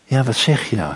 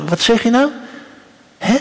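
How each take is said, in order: First: Hushed, falling question; softly asking mother. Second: High, rising query; questioning mother. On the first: Moeder leans down to her kleine meisje, soft and attentive. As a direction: bend close and ask softly. Mother bends down to hear child. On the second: Moeder asks her kleine meisje to repeat, high and questioning. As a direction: ask it high, as to a small child. Acts mother asking whispering child. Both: Acted.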